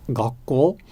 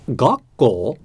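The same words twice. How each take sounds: First: "gakko" flat, lifting only at the end; correct gakko. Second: "gakko" said with an English-style stress drop on the first syllable; wrong English-style gakko. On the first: Teacher contrasting the right pitch pattern, flat then rising. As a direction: keep "gakko" level, small rise at the end. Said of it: "Rather than saying". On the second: Teacher showing his old English-minded mistake, stressed first syllable. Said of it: "I said". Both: Shown as a demonstration.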